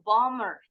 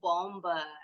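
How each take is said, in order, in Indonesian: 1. Bunyi b diam di tengah. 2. Bunyi b diucapkan di tengah. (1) "harusnya bomber. The bomber" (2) "bukan bomber"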